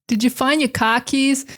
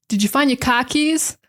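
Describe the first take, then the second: No difference in how they are said.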